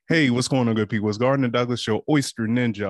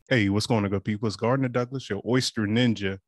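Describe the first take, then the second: First: It is said in a lively, excited voice. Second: It is said in a calm, even voice. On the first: "Can you hear the excitement in my voice?" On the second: "was it professional?"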